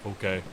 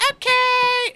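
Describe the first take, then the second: First: Understated, slightly lower Goliath voice; low-key Goliath, a brief acknowledgement; Goliath reply. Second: Put-on very high, loud, gleeful child squeal; grinning little half-orc. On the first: Acted. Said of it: "Goliath looks at you and he goes". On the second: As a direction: shout it with a big grin, squeaky. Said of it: "a big grin on her face".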